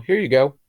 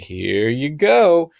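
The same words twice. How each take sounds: First: It is said in a plain, ordinary tone. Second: It is said in a changed, knowing tone. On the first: The pill is the real medication. "when you're giving out the real medication" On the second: The pill is only a placebo. "your tone changes"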